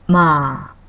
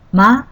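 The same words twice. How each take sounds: First: The vowel is held twice as long. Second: The vowel is held briefly.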